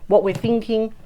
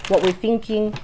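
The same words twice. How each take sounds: The two takes are said the same way.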